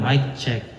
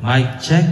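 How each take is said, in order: First: The amplified voice is turned down quieter. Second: The amplified voice is loud, with echo. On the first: "hinaan ko" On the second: "Ang lakas niya"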